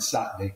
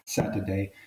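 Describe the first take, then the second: First: It is said in a broad northern accent. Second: It is said in a neutral accent. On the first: The speaker sounds clearly local. "to broad" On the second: The speaker does not sound like a local. "So we got from, quote, neutral"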